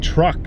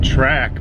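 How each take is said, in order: First: The vowel sounds like 'truck', a South African accent. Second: The vowel sounds like 'track', the speaker's own accent. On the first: "she had such a like a South African accent" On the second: "She was saying track"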